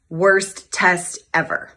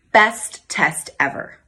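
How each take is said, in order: First: Slow, heavy, word by word; grim title. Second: Slow, savoured, word by word; proud title. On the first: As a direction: spell out the grim title slowly. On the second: Happy story title, slow. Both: Retold or imitated.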